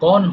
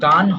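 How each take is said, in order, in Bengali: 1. স্বরধ্বনিটি একটি গোলাকার 'o' ধ্বনি। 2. স্বরধ্বনিটি একটি খোলা 'ah' ধ্বনি। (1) "গন হবে" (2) "এটা কিন্তু গান হয় না"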